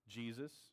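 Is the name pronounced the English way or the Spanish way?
English. It is pronounced the English way. "In English"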